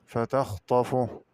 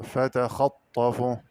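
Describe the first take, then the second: First: Said in the usual way. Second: فتخطفه as "fa-takhat-tafu"; slow فتخطفه with a after kh and a held tt; open kha, doubled ta. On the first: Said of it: "بفتح الخاء وتشديد الطاء". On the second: Shown as a demonstration. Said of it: "قرأ بفتح الخاء وتشديد الطاء".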